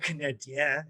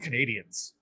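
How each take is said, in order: First: The name is said with a French pronunciation. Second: The name is said with an English pronunciation. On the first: "if you really want to make it Quebecois" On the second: "I just called them Canadians"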